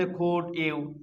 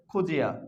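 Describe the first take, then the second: First: Said in the usual way. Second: "খুজিয়া" with d and y fused into j; linked pronunciation. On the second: Shown as a demonstration. Teacher answers what this becomes, "খুজিয়া" with a j link. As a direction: run it together as khu-jia, "খুজিয়া". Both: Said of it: "তাহলে এটা কি হবে".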